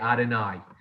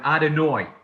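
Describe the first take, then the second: First: It is said in a Jacksonville pronunciation. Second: It is said in a New York pronunciation. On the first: "here to Jacksonville that I now say Adonai" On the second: "I grew up saying the word Adonai"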